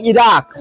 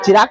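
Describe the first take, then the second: First: इराक starting on a clean "i" vowel; corrected pronunciation. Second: चिराक with a "ch" sound at the start; wrong pronunciation. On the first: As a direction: say इराक as "i-raak", no "ch" in front. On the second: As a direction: mispronounce इराक as चिराक, opening on "ch". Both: Shown as a demonstration. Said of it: "चिराक नहीं, इराक".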